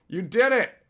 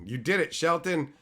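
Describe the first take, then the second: First: Excited. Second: Said in the usual way. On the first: Shown as a demonstration.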